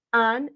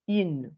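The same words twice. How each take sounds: First: AN as nasal French "un"; nasalized masculine. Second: IN as French "une", falling; pursed u on IN, then a clear N; denasalized feminine. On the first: Teacher repeating the contrast, masculine nasalized AN. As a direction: keep AN in the nose, no released N. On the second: Teacher repeating the contrast, feminine denasalized IN. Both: Shown as a demonstration. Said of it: "pourquoi je dis".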